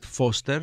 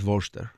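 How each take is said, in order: First: The name begins with an F sound. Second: The name begins with a V sound. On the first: This is how it is said in South Africa. "In South Africa, we pronounce it Voorster, like your Foster" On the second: This is how the spelling suggests it is said. "But it looks like it's Voorster"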